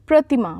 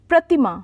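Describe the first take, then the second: Both takes have the same delivery.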